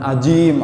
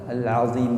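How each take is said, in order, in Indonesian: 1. Kata itu diucapkan dengan bunyi j. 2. Kata itu diucapkan dengan bunyi z. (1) "bukan ajim" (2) "astaghfirullah al-azim"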